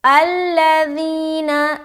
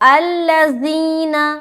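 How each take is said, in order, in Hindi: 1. बीच का व्यंजन नरम, पतला "th" जैसा है। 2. बीच का व्यंजन गूंजती हुई "z" आवाज़ बन जाता है। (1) "जाल को बिल्कुल ही नरमी के साथ और बारीक अदा करेंगे" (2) "ये जो जाल हर्फ है वो जा से चेंज हो गया"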